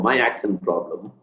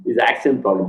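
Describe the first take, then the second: First: Slow, with "my" stressed to correct "His"; self-correction, "my" said slower with the weight on it. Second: Said in the usual way. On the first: Shown as a demonstration. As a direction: lean on "my" to fix the slip.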